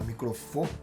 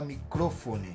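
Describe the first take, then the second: First: The stress is on the second-last syllable. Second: The stress is not on the second-last syllable. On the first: The speaker calls it right. "a gente fala microfone. Então é uma paroxítona" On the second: The speaker calls it wrong. "a gente não fala microfone"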